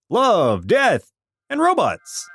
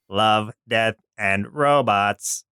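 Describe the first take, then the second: First: Excited announcing. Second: Slow robotic voice with odd enunciation. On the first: Excited show title announcement. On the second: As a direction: speak like a robot, lower. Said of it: "enunciate in weird places". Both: Acted.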